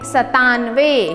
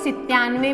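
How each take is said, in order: First: The first syllable is said as 'sa'. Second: The first syllable is said as 'si'. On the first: The speaker calls it right. "इसे हम बोलेंगे सतानवे" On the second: The speaker calls it wrong. "जो कि गलत है"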